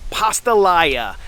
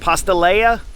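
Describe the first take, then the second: First: The ending rhymes with jambalaya. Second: The ending does not rhyme with jambalaya. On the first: The speaker calls it right. "I finally got it" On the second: The speaker calls it wrong.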